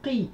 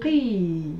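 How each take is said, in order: First: The vowel is short. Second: The vowel is long. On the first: "Ce sont des sons qui sont courts" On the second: "Pour prolonger le son I, on rajoutera la lettre Ya"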